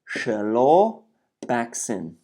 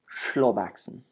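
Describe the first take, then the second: First: The word is said slowly, split into parts. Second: The word is said whole at normal speed.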